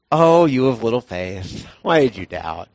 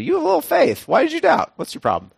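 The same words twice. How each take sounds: First: Gentle Jesus. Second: High, sharp mock-stern rebuke; hammed-up scolding Jesus. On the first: Retold or imitated. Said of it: "how did Jesus say that? Did he go". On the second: Jesus scolding Peter seriously, hammed-up stern rebuke. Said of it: "look at him really seriously".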